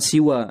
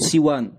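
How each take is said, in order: First: The word ends on a vowel, without n. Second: The word ends with a final n sound. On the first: The word is joined to a following word. The speaker calls it wrong. "bukan siwa ya" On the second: The word stands alone as an ordinary noun. The speaker calls it right. "yang rajih itu siwan"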